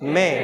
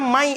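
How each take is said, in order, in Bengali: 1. স্বরধ্বনিটি 'e'-এর মতো উচ্চারিত হয়। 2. স্বরধ্বনিটি 'ai'-এর মতো উচ্চারিত হয়। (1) "এটা কি মে" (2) "এটা মাই এরকম না"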